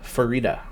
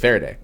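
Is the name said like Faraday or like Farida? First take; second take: Farida; Faraday. First: The name is said like Farida. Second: The name is said like Faraday. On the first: The speaker calls it right. "but it is Farida" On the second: The speaker calls it wrong. "I thought it was Faraday"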